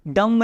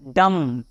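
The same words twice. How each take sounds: First: "डम्ब" with a clear b sounded at the end; wrong pronunciation. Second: "डम" said as "dum", the b left silent; silent b demo. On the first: ("डम्ब" को आख़िर में b बोलकर, ग़लत तरीके से) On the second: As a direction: say "डम" with no b sound at the end. ("डम" में b बिल्कुल नहीं बोलना) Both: Shown as a demonstration. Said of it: "डम्ब नहीं".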